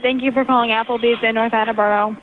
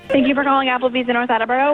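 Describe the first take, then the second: First: It is said more slowly. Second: It is said very fast.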